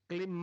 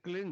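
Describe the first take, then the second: First: The word ends without a nasal 'ng' sound. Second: The word ends with a nasal 'ng' sound. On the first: The speaker calls it wrong. "क्लिंग मैं नहीं" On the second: The speaker calls it right. "क्लिंग है, अंग का उच्चारण होना पड़ेगा"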